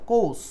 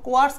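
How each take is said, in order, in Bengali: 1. k-এর পরে কোনো ধ্বনি নেই। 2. k-এর পরে w-এর মতো একটা ধ্বনি আছে। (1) "অনেক সময় কোর্স হয়" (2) "এটাও কিন্তু কোয়ার্স"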